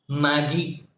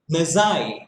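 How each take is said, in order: First: The g is hard, sounding like 'maggie'. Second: The g is soft, ending in an 'eye' sound. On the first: The speaker calls it wrong. "usually we pronounce it as Maggie" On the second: The speaker calls it right. "This is Messiah"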